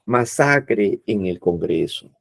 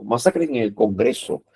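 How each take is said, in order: First: "masacre" slowed and stretched, the final e held; slow emphatic "masacre" with a drawn-out ending; stress on masacre. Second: Said in the usual way. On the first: Shown as a demonstration. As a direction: lean on "masacre" slowly, like a dramatic headline. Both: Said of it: "Pues énfasis".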